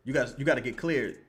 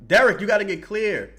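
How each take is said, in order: First: Said in the usual way. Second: Louder, higher call to a player; yelling at the TV. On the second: Real, not acted. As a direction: shout the name out like he can hear you.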